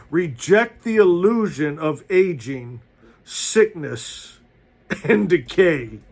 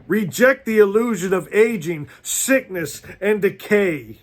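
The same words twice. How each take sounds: First: Said in the usual way. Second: Rising, emphatic preacher's repeat; fired-up sermon voice; preaching at full force. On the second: Real, not acted. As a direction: drive it home to the congregation.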